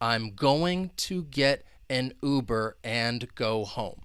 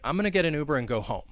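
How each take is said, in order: First: Each word is said fully and separately. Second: The words are reduced and run together. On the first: The speaker calls it wrong. "If I were to say each individual word" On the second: The speaker calls it right. "I would say"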